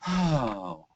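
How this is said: It is a breathy, airy sigh.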